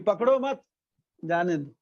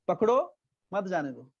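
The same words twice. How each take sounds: First: There is a pause right after 'मत'. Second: There is a pause right after 'पकड़ो'.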